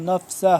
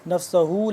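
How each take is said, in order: First: The word ends on h with no vowel. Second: The word ends with a vowel after h. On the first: The reader stops at this word. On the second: The reading continues without stopping.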